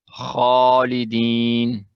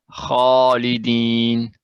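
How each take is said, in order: The two takes are said the same way.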